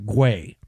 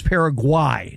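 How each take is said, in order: First: Guay as "gway"; "Guay" with an "ay" vowel; "gway" ending. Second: Paraguay as "para-GWAI"; "Paraguay" with an "eye" last vowel; "gwai" ending. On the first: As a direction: say Guay rhyming with day. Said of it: "not Guay". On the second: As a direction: end Paraguay rhyming with why. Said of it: "proper pronunciation is". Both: Shown as a demonstration.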